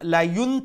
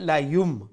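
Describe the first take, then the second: First: The syllable ends with an n sound. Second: The syllable ends with a nasalized m sound. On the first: "নুন সাউন্ডে আমরা কিতায় পরিণত করবো বদলাইমু মিমে" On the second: "গুণার সহিত লায়ুম"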